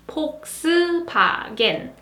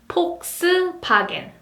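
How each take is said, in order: First: It is said with Korean P and B sounds. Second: The same.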